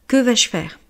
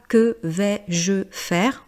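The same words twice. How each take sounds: First: The words flow together in one smooth go. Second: Each word is said separately, like a robot. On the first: The speaker calls it right. "vous devez le prononcer en une seule fois" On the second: The speaker calls it wrong. "C'est pas que vais-je faire? Vous voyez, là ça fait comme un robot"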